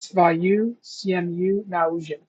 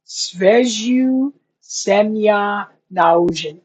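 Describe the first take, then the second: First: "Sveziu Semya Naužin" read again slowly, a bit softer; re-read "Sveziu Semya Naužin" to check it; quiet, slow check of "Sveziu Semya Naužin"; checked Russian line. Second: "Sveziu Semya Naužin" sounded out very slowly; slow Russian guess at "Sveziu Semya Naužin"; careful Russian attempt. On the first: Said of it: "I was close". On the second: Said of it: "is the next line". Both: Shown as a demonstration.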